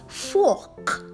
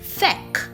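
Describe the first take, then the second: First: The vowel sounds plain, like 'fork'. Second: The vowel sounds affected and unlike 'fork'. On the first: The speaker calls it right. "it's rightly pronounced fork" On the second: The speaker calls it wrong. "trying to fake an accent"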